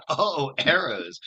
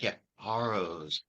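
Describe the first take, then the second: First: Loud, drawn-out "arrows" with no h, as if it dawns on you; "arrows" pronounced correctly. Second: "harrows" with an added h at the front, said slowly; Italian-accented "harrows". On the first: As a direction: say "arrows" starting on a clear open vowel, higher and slow. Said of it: "pronounce arrows". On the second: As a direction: imitate an Italian putting an h before "harrows". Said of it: "with a thick Italian accent". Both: Retold or imitated.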